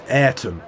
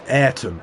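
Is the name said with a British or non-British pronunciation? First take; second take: British; British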